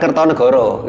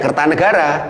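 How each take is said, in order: First: The vowels are pronounced as rounded 'o' sounds. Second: The vowels are pronounced as open 'a' sounds. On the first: The speaker calls it wrong. "bukan Kertonegoro" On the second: The speaker calls it right. "lebih dominan A"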